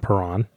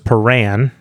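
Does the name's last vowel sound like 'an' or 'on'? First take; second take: on; an. First: The last syllable sounds like 'ron'. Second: The last syllable sounds like 'ran'. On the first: The speaker calls it wrong. "not Perron" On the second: The speaker calls it right. "Ganoz Perran"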